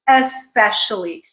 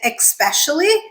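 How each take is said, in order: First: The start is said as 'esp'. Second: The start is not said as 'esp'. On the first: The speaker calls it right. "It is spelled E S P, so it's especially" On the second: The speaker calls it wrong. "I don't know why some people say especially, but it is not"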